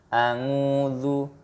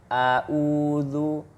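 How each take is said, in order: First: The second syllable starts with an 'ng' sound. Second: The second syllable starts with a glottal stop. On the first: "melafalkan huruf ain seperti huruf ang ya" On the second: "mengganti huruf ain dengan hamzah"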